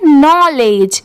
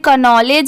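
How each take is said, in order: First: The word starts with an n sound, no k. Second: The word starts with a k sound before n. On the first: The speaker calls it right. "यहाँ पर के letter silent है" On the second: The speaker calls it wrong. "But नहीं"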